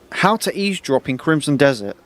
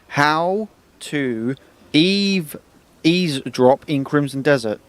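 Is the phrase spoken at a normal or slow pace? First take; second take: normal; slow. First: The phrase is spoken at a normal pace. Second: The phrase is spoken slowly and deliberately.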